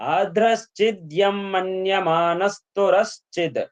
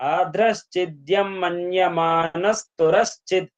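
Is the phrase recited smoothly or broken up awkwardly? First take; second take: smooth; smooth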